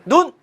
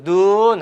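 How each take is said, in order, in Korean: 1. 모음을 짧게 발음해요. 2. 모음을 길게 발음해요. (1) "그냥 눈 그러면 우리의 그 신체의 눈이" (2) "길게 읽으면 하늘에서 내리는 눈이고"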